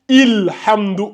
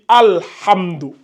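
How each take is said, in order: First: The word begins with an i vowel. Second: The word begins with an a vowel. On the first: The speaker calls it wrong. "On ne dit pas Ilhamdou" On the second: The speaker calls it right. "Non, on dit Alhamdou"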